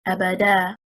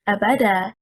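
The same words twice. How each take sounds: First: The stress is on the third syllable. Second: The stress is on the second syllable. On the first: "If we stress on the third حركة, حركة الدال" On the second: "Stressing on the second حركة, حركة الباء"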